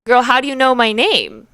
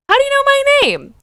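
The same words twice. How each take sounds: First: Said in the usual way. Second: "How do you know my name?" squeaked very high and loud, "my" stressed; baffled, disbelieving shriek; incredulous. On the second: Real, not acted.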